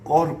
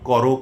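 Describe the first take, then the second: First: Each word ends without an added o-vowel. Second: Each word ends with an added o-vowel. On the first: The speaker calls it right. "শেষে অ থেকে যাবে এমন কিছু দ্বিরুক্ত শব্দ আছে" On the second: The speaker calls it wrong. "কর হবে না"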